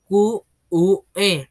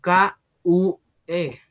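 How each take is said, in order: First: "Q U E" spelled slowly, letter by letter; slow, stern "Q U E", each letter apart; correct spelling. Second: "K U E" spelled slowly, letter by letter; slow, drawn-out "K U E", each letter apart; wrong spelling. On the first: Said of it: "La palabra que se deletrea". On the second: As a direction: spell "K U E" slowly and proudly, sure it's right. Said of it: "Ah, ya sé, tiene que ser". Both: Acted.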